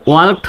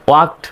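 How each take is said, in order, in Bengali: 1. শব্দটি d ধ্বনি দিয়ে শেষ হয়। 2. শব্দটি t ধ্বনি দিয়ে শেষ হয়। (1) "ওয়ার্কড না বলে" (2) "ওয়াক্ট বলতে হবে"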